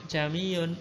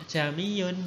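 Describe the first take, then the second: No difference in how they are said.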